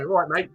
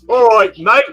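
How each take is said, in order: First: It is said in a natural British accent. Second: It is a put-on American imitation of British. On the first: This is how locals actually say it. The speaker calls it right. "Like we go" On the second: This mocks how outsiders fake the accent. The speaker calls it wrong. "that's how the Americans would do it"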